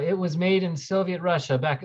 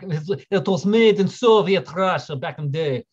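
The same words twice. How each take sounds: First: Said in the usual way. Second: Slow, hammed-up Russian accent; shoddy Russian accent. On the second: Streamer describing where the film was made, in a shoddy Russian accent. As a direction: put on a bad, drawn-out Russian accent. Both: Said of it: "That was a really shitty Russian accent".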